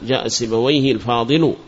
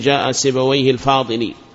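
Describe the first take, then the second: First: The last word ends with a u vowel. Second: The last word ends with an i vowel. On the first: The adjective takes the nominative case ending. The speaker calls it right. "قل الفاضل مرفوع" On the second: The adjective copies the fixed ending of the name. The speaker calls it wrong. "فلا تقول"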